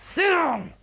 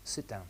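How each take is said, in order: First: Explosive high-pitched yell; hostile shout. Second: Low, soft, confident instruction; quietly firm, neither hostile nor weak; warm, assertive. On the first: Hostile teacher ordering students to sit, shouting. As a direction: bellow the order at full force. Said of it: "more of a hostile approach with these students". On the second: Assertive teacher expecting a student to sit, warm and sure. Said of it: "And my tone's warm". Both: Shown as a demonstration.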